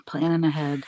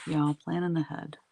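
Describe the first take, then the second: First: Planning punched louder, Planning ahead; playful emphasis. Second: Said in the usual way. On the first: Shown as a demonstration. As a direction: hit Planning with a grin.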